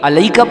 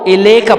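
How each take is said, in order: First: It begins with 'a' and has 'lai'. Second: It begins with 'i' and has 'le'. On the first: "गलती अलैका पढ़ते हैं" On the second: "और इलेका पढ़ते हैं, दोनों गलते"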